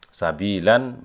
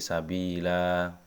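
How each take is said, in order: First: The word ends with a short vowel and n. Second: The word ends with a long drawn-out vowel. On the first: "Sabilan menjadi sabila karena waqaf" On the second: "bacanya tetap panjang sabila"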